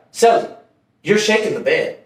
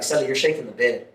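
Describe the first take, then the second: First: "Celly" raised, then settling; mildly irritated imitation, calling out the first word; cellmate getting annoyed. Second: Low, soft quoted complaint; cellmate's first complaint. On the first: Cellmate complains a second time to his celly, mildly annoyed. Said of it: "he was getting mad". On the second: Retold or imitated. Cellmate wakes and tells his celly about the bed, low and quiet. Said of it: "my celly woke up and he's like".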